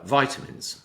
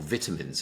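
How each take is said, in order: First: It is said with a non-British pronunciation. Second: It is said with a British English pronunciation.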